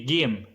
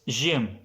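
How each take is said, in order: First: The word starts with a hard g sound. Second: The word starts with a j sound. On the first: "if I say it in the Egyptian way, Egyptian pronunciation, then it will be Gim" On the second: "In the classic way, it was Jim"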